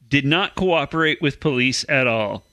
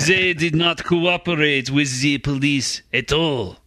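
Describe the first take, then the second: First: It is said in the speaker's normal accent. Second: It is said in a put-on French accent.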